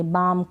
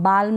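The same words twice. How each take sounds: First: बाम with a long vowel straight into M; silent L. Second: बाल्म with a clear L before the M; L wrongly sounded. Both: Shown as a demonstration. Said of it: "बाल्म नहीं पढ़ेंगे".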